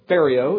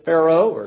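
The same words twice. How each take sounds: First: The name has an alternative, personal pronunciation. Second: The name has its common pronunciation.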